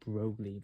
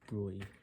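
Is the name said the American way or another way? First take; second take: American; another way. First: The name is said with an American pronunciation. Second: The name is said without the American pronunciation. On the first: The speaker calls it wrong. "given my American nature... I always feel like I have to pronounce it Broglie" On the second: The speaker calls it right. "but apparently it's Broglie"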